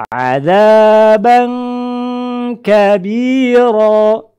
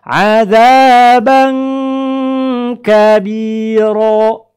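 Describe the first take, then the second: Both takes have the same delivery.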